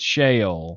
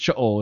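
First: It is said in a Southern accent. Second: It is said in a Hebrew-style pronunciation. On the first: "if you're in the South, it's Sheol" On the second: "if you're Hebrew, it's Sheol"

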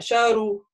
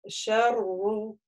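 First: The r is short and not doubled. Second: The r is doubled with moderate length. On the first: The speaker calls it wrong. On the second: The speaker calls it right.

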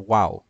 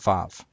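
First: The word begins with a W sound. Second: The word begins with a V sound. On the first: This is the ancient pronunciation. "in ancient Hebrew made a W sound" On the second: This is the modern pronunciation. "in modern Hebrew called vav"

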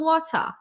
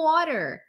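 First: It is said in a British accent. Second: It is said in an American accent. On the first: "os britânicos falam water" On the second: "os americanos falam water"

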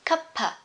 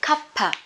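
First: The two words are run together as one word. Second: The two words are run together as one word.

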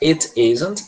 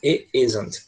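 First: The t sound in 'it' is pronounced. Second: The t sound in 'it' is dropped. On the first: "você pode pronunciar it isn't" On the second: "esse it, ele fica só um som de I mesmo"

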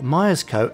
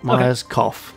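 First: The final syllable is said like 'co'. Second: The final syllable is said like 'cough'. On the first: The speaker calls it right. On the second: The speaker calls it wrong.

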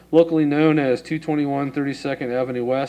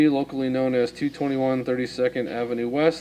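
The two takes are said the same way.

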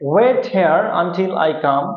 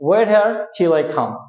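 First: The full word until is said. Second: The shortened form till is said. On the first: "সাধারণত আমরা বলি আনটিল" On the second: "এখন আমরা until কে till উচ্চারণ করি"

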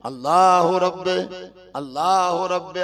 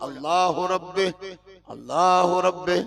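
No difference in how they are said.

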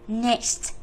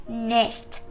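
Both takes have the same delivery.

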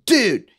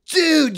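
First: The word sounds annoyed and upset. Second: The word sounds impressed and admiring. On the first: The speaker is upset that a toy was broken. "dude, you just broke my Optimus Prime" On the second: The speaker is praising someone's skateboard jump. "dude, you got mad air on that skateboard"

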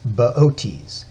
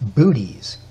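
First: It is pronounced unlike the word 'booties'. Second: It is pronounced like the word 'booties'. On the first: The speaker calls it right. "but it's Bootes" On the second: The speaker calls it wrong. "you'd want to pronounce it Booties"

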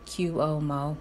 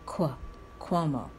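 First: It starts with a separate 'cue' sound. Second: It starts with a 'kw' sound like queen. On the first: The speaker calls it wrong. "they think you say the C and the U first and then the rest" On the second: The speaker calls it right. "Think of it the way you pronounce the word queen"

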